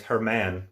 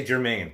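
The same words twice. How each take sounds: First: Germán said the Spanish way, her-MAHN with stress on MAHN; Germán pronounced properly in Spanish; correct name. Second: Germain said the English way, like jer-MAIN; the habitual wrong take, Germain anglicized; wrong name. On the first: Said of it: "but it's Germán". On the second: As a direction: Germain with an anglicized first syllable, stress on MAIN. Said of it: "I always wanna say Germain". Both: Shown as a demonstration.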